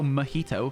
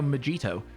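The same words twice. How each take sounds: First: The middle consonant is an H sound. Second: The middle consonant is a J sound. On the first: "You're not going to go mojito" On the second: "if you don't know that the J is an H, if you just read the word and you are English, you're going to go mojito"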